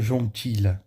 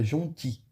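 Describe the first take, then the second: First: The word ends with an audible L sound. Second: The word ends without any L sound. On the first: The speaker calls it wrong. "Você não pronuncia o som do L, então não fica jontilha" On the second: The speaker calls it right. "você fica jonti"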